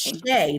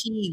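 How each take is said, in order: First: The word is pronounced like 'shay'. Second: The word is pronounced like 'shee'. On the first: The speaker calls it right. "It's Shay, like Shea Butter" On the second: The speaker calls it wrong. "I always say it wrong. I want to say"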